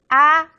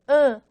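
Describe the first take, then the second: First: The air comes out through the mouth only. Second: The air comes out through mouth and nose. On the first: "Son orales, cuando el aire sale por la boca" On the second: "Son nasales, cuando el aire sale por la boca y por las fosas nasales"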